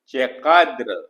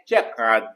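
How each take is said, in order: First: The word is said in its full form. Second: The word is said in a shortened form. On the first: This is the formal form. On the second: This is the everyday spoken form.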